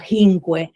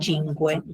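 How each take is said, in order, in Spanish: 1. La primera consonante es aspirada, con un sonido de aire. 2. La primera consonante es un sonido 'ch' normal. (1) "los toscanos se eh, aspiran las letras C" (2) "en lugar de"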